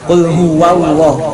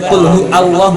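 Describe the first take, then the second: First: A w sound links hu to Allah. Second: Hu and Allah are separate with no w sound. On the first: The speaker calls it right. "Qul huwallah pakai waw" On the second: The speaker calls it wrong. "Bukan qul hu Allah, bukan"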